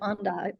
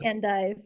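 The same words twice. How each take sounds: First: The word is said with a French pronunciation. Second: The word is said with an English pronunciation. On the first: "but I'm not French, so maybe it's endive" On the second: "I say endive"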